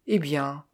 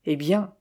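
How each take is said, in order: First: Mildly tranquil echo; calm. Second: Restrained exclamation with a lift at the end; a touch of an outburst; mild exclamation. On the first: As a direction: repeat it calmly, without any push. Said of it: "répéta tranquillement Eden". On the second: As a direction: exclaim it, understated. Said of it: "s'écria-t-il". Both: A narrator's reading.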